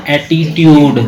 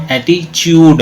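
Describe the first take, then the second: First: "ایٹیٹیوڈ" with a plain t in tyood; beginner's spelled-out reading. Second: "ایٹیچیوڈ" with ch in place of the second t; ch pronunciation. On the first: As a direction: say "ایٹیٹیوڈ" with t, not ch. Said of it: "یہ وہ ہے جیسے بچہ". ("ایٹیٹیوڈ"، ٹ کی صاف آواز کے ساتھ) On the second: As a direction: turn the middle t of "ایٹیچیوڈ" into chood. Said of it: "چے کے بعد دیتا ہے". ("ایٹیچیوڈ"، ٹ کی جگہ چ کی آواز) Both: Shown as a demonstration.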